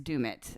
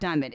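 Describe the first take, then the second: First: The first vowel is a long 'oo' sound. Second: The first vowel is a short 'uh' sound. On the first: The speaker calls it right. "It's doom it" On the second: The speaker calls it wrong. "It's not dumb it"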